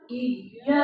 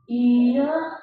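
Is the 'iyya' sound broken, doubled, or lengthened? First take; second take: doubled; lengthened. First: The consonant is pressed and doubled. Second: The vowel is drawn out long. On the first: The speaker calls it right. "ditekan dorong" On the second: The speaker calls it wrong. "Bukan juga iya, dipanjang tuh"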